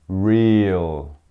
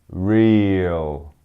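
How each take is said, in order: No difference in how they are said.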